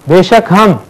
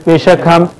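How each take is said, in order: No difference in how they are said.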